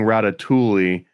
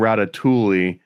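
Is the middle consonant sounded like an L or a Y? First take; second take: L; L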